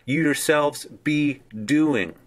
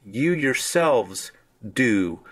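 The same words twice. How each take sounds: First: You yourselves be doing said slowly, You leaning hard; emphatic subject, slow; stress on You yourselves. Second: You yourselves drawn out slowly, leaning on You; emphatic subject, slow; stress on You yourselves. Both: Shown as a demonstration. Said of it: "is stressing even more the subject".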